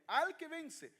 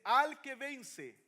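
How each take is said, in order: First: Higher pitched, ringing proclamation; raised proclaim. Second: Drawn out, loud and very slow; slow emphatic. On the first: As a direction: lift it up in wonder. (proclamado con asombro, más agudo) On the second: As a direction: weigh every word, proclaim it. (lento y enfático, proclamado con fuerza) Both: Shown as a demonstration. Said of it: "Mire, mire qué tremendo".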